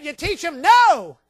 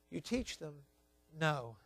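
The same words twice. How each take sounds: First: No rings out high, loud and slow; booming pulpit declaration; loud preaching. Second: Quiet echo. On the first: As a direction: hammer the word no home. Preacher hammering the point. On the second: Quiet repeat of the point. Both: Acted.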